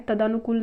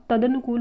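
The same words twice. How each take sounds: First: तदानुकूल with long daa; incorrect form. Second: तदनुकूल with short da; correct form. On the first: Teacher rejecting the misspelling, तदानुकूल with long daa. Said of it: "तदानुकूल नहीं होता". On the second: Teacher giving the correction, तदनुकूल with short da. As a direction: say तदनुकूल as ta-da-nu-kool. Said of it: "तदनुकूल होता है". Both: Shown as a demonstration.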